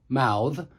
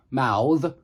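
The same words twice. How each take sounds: The two takes are said the same way.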